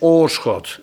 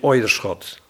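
First: The first vowel is a long plain 'oo'. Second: The first vowel is a gliding 'oi'. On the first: The speaker calls it right. "het is oorschot" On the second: The speaker calls it wrong. "niet oierschot"

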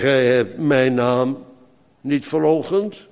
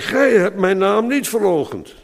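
First: The word 'gij' is not stressed. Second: The word 'gij' carries the stress. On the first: The speaker calls it wrong. "dit is de verkeerde klemtoon. Deed met opzet" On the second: The speaker calls it right. "Wie dan wel, is de vraag"

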